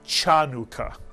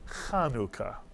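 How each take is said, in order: First: It begins with an English 'ch' sound. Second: It begins with a throaty, throat-clearing rasp. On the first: The speaker calls it wrong. "this word is not pronounced Chanukah" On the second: The speaker calls it right. "but rather Chanukah"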